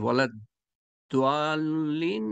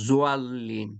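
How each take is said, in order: First: The last word begins with a d-like sound. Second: The last word begins with a z-like sound. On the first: The speaker calls it right. "ওয়ালা দোয়াল্লিন নাকি জোয়াল্লিন?" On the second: The speaker calls it wrong. "জোয়াল্লিন বলবেন না, বাংলাদেশে জোয়াল্লিন বলে।"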